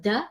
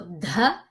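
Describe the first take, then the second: First: The d has no puff of breath after it. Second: The d is followed by a strong puff of breath. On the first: The speaker calls it wrong. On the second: The speaker calls it right. "this is a D H"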